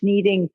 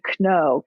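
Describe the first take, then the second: First: The word starts with a silent K. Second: The word starts with a pronounced K.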